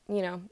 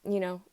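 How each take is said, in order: The two takes are said the same way.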